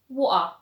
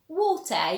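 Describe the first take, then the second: First: The middle T becomes a glottal stop. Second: The middle T is fully pronounced. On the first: "you would say water" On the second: "instead of saying water"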